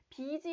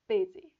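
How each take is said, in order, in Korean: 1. 첫 번째 모음은 긴장된 'ee' 소리예요. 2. 첫 번째 모음은 'i'와 'e' 사이에 있어요. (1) "이거 busy 아니고요" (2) "약간 이와 에 중간 말"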